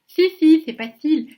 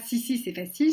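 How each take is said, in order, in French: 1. Les sons s sont zézayés, la langue sortie. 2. Les sons s sont des s sifflés ordinaires. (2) "C'est pas"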